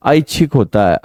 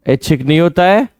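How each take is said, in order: First: ऐच्छिक with a full open ai vowel, aichchhik; ऐच्छिक, lean on the ai at the start; correct ऐ sound. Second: ऐच्छिक said with a short plain e, as ehchik; ऐच्छिक with a flat e vowel, the wrong way; wrong ऐ sound. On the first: Teacher corrects the students, full ai in ऐच्छिक. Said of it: "ऐ की ध्वनि होती है ना ये". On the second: Teacher shows the wrong way to say ऐच्छिक, short e. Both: Shown as a demonstration.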